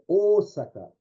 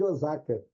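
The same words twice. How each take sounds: First: The first vowel is long, Japanese style. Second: The first vowel is short, Brazilian style. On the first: This is the original pronunciation. The speaker calls it right. "ele prolonga esse som" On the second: This is the adapted local pronunciation. The speaker calls it wrong. "que aqui no Brasil a gente chama de Osaka"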